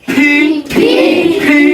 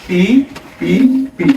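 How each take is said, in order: First: The p is said with a strong puff of air. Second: The p is said without a puff of air. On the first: The speaker calls it right. "নড়ছে that means আমার সাউন্ডটা কি হচ্ছে correct হচ্ছে" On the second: The speaker calls it wrong. "নড়ে নাই"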